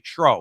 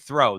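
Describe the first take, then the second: First: The word is said in a New Jersey accent. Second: The word is said in a standard accent. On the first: "they say tro in New Jersey" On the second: "They don't say throw"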